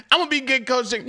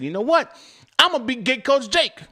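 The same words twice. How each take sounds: First: "I'm gonna be Get Coach Jake" said through laughter, high; laughing. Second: Higher and louder, hyped declaration; excited vow. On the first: Real, not acted. Repeating his vow to chat, laughing through it. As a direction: say it while still laughing at yourself. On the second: Retold or imitated. To chat, retelling his vow to coach drivers, excited. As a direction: announce it like a big decision.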